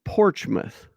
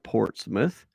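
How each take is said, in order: First: The middle is said with a 'ch' sound. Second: The middle is said with a 'ts' sound. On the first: This is how locals say it. The speaker calls it right. "You pronounce it Portsmouth. P O R C H M O U T H" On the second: This is not how locals say it. The speaker calls it wrong. "you don't pronounce it Portsmouth"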